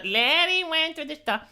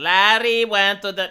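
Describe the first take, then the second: First: Higher-pitched pupils' singsong echo; children repeating. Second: Measured classroom model for pupils; teacher's model. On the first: Children repeating after the English teacher, high mock-pupil chant. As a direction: parrot it back like a class of kids. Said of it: "Repeat after me, children". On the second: Teacher giving children a line to repeat, measured model delivery. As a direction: say it for the class to copy. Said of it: "Repeat after me". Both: Acted.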